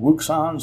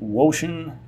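First: The middle consonant sounds like 'ks'. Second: The middle consonant sounds like 'sh'. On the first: "Some people pronounce it Wuxon" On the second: "some pronounce it Woshin"

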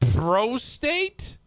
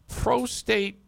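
First: The word has an odd, unnatural inflection. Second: The word has a normal, natural inflection.

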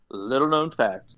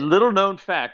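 First: It is said slowly. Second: It is said fast.

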